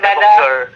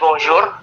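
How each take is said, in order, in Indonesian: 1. R-nya diucapkan seperti r Inggris. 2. R-nya diucapkan seperti r Indonesia. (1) "daripada bonjour" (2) "Lebih lebih baik pakai R Indonesia. Jadi mendingan bonjour"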